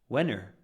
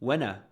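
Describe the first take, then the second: First: The vowel after 'when' has an r-sound. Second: The vowel after 'when' is a plain schwa.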